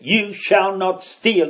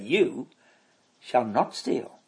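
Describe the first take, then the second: First: It is said as a stern command. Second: It is said as a reassuring promise.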